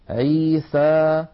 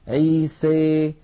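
First: The final vowel is a plain, open 'a'. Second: The final vowel leans strongly toward 'ee'. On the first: "فتحا وسطا" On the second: "يخلط صوت الألف بصوت الياء أكثر"

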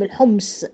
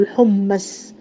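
First: The m is closed, with no vowel after it. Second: The m is followed by a short vowel. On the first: "ممكن تسكني الميم" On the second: "القراءة الاتنين صح يعني"

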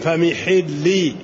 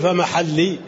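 First: The vowel after the m is i. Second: The vowel after the m is a. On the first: It means my release from the sacred state. The speaker calls it right. "فبكسر الميم" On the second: It means my place. The speaker calls it wrong. "لا تقول فمحلي"

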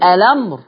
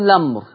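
First: The word begins with a vowel before the l. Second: The word begins directly with the l sound. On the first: "يا أنطق همزة الوصل أقول الأمر" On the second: "أشيل همزة الوصل وأبدأ باللام أقول لمر"

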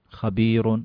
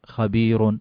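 The two takes are said the same way.

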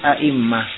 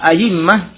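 First: The hamzah is kept as a glottal stop. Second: The hamzah is replaced by a y sound. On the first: "Kadang dengan tashih yaitu a'immah. Tashih masih menetapkan hamzahnya" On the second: "datang dengan ibdal dengan dikatakan a'immah"

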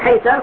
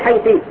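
First: The word ends in the vowel a. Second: The word ends in the vowel i. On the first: "على الفتح وتقول حيث" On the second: "على الكسر وتقول حيثي"

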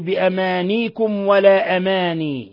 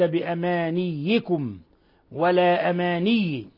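First: The y sound is single and light. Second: The y sound is doubled and held. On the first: "بتخفيف الياء ساكنة فيهما" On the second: "قراءة الجماعة بالتشديد"

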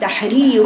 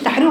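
First: The vowels are given their full length. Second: The vowels are snatched and cut short. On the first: The speaker calls it right. "اذا نراعي تحرير" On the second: The speaker calls it wrong. "ما تقوليش تحرير رقبه. اختلست الحركات"

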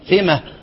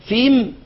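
First: The word ends with an added h sound. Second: The word ends on a silent m sound. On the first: "ويجوز الوقف إيه؟" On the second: "يجوز الوقف بالإيه؟"

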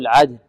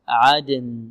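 First: The final n sound is barely heard. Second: The final n sound is clearly pronounced. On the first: The speaker calls it wrong. "لا نقول عدن يعني تكون النون يعني ليست واضحة" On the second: The speaker calls it right. "نقول عدن عدن عدن"

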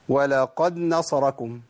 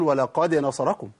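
First: The d is merged into the following n. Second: The d is released with a small bounce. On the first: The speaker calls it wrong. "ممكن أعمل إدغام" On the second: The speaker calls it right. "لازم القلقلة"

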